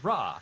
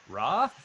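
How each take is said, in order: First: It sounds like calm, simple agreement. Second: It sounds like a question to a group. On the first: The speaker agrees with someone. "agreeing with someone you by saying Ra" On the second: The speaker checks whether everyone understands. "asking the platoon if everyone understands Ra"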